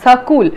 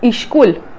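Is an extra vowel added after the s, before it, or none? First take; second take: after; before. First: An extra vowel is added after the s. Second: An extra vowel is added before the s. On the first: "school is pronounced as sakul" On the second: "some dialects, school is pronounced as ishkul"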